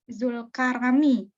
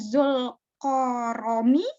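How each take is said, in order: First: The syllables after Zul use an open a vowel. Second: The syllables after Zul use a rounded o vowel. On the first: This is the local Indonesian reading of the name. The speaker calls it wrong. "pengucapan Indonya Kak" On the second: This follows the original Arabic reading of the name. The speaker calls it right. "Harusnya Zulkoromi"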